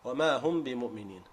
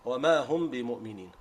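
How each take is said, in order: First: The phrase is said quickly with a short nasal sound. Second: The phrase is said quickly with a short nasal sound.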